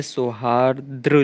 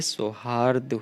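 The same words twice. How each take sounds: First: सौहार्द्र with an extra r in the final "dru"; wrong form. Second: सौहार्द slowed, ending in "rd" without a second r; correct form. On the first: Teacher showing a misspelling, सौहार्द्र ending in "dru". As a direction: end सौहार्द्र on a stressed "dru". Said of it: "सौहार्द्र कुछ नहीं होता है". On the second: Teacher giving the correction, सौहार्द slow with plain "d" ending. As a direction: say सौहार्द slowly, no r after the d. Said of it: "ये सौहार्द होता है". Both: Shown as a demonstration.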